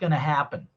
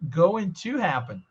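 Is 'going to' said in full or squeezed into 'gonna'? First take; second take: gonna; full. First: 'Going to' is merged into one short word. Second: Both words of 'going to' are said fully. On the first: "ele fez uma junção aqui e fez assim, ó, gonna" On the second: "a única coisa que a gente não ouviu aqui foi going to happen"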